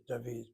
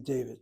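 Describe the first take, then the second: First: "David" said the Hebrew way, dah-VEED, softer; Hebrew pronunciation. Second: "David" said the English way, DAY-vid; English pronunciation. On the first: Teacher gives the name to students, Hebrew pronunciation. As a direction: say "David" with an ah, then a long ee. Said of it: "there's a dagesh kal in that name David". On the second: Teacher gives the name to students, English pronunciation. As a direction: say "David" with an English long A, stress first. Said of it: "in that name David". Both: Shown as a demonstration.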